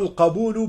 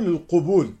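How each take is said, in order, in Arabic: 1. الحركة الأولى صوت فتحة 'a'. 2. الحركة الأولى صوت ضمة 'u'. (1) "إنما هو القبول بفتح القاف" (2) "وبعضهم يخطئ في نطقه فيقول القبول، وهذا خطأ"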